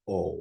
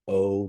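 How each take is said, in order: First: The vowel stays steady without any glide. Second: The vowel glides with rounding at the end. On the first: The speaker calls it right. "where it's a pure o" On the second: The speaker calls it wrong. "the way that I would pronounce, which is with the with the rounded lips at the end"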